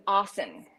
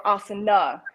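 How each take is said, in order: First: Asan ending on the N; asan, last vowel dropped; silent final A. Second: Asana with the A voiced at the end; asana, closing vowel pronounced; final A sounded. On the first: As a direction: say "asan" with no A at the end. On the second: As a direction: say "asana" in three syllables, ending in "na". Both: Shown as a demonstration. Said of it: "the A is actually silent".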